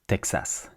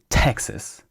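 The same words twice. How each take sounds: First: French pronunciation with a full second vowel. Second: English pronunciation with a reduced second vowel. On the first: "in French, we say Texas" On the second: "in English, you say Texas"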